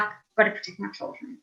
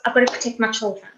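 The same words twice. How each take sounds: First: Breathy whisper, much softer. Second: Said in the usual way. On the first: Shown as a demonstration. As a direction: hush it like an inner vow. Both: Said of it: "This is like".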